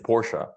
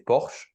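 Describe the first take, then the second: First: It is said with English pronunciation. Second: It is said with French pronunciation.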